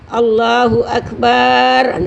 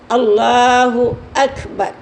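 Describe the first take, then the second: First: The vowel in the final syllable is drawn out. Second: The vowel in the final syllable is kept short. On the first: The speaker calls it wrong. "Tidak boleh memanjangkan pada lafaz bar tu" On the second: The speaker calls it right. "Barnya tu pendek je"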